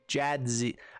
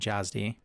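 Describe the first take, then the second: First: The d sound comes before the z. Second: The z sound comes before the d. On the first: The speaker calls it right. "Jad Jadzi" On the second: The speaker calls it wrong. "I keep saying it wrong"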